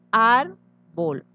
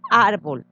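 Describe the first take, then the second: First: Árbol partido en dos: ár... bol; separado en sílabas. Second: Said in the usual way. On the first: Shown as a demonstration. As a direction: alargar la primera sílaba de árbol y pausar. (árbol lento, sílaba por sílaba) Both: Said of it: "Al dividir queda".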